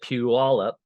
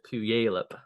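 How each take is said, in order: First: The name is said differently from its spelling. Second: The name is said the way it is spelled. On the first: The speaker calls it right. "you pronounce it Puyallup" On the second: The speaker calls it wrong. "a lot of people pronounce it Puyallup"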